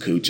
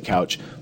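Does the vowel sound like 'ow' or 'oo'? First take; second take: oo; ow. First: The vowel sounds like 'oo' in moon. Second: The vowel sounds like 'ow' in cow. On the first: The speaker calls it right. "his name is pronounced Cooch" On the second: The speaker calls it wrong. "a lot of people say couch"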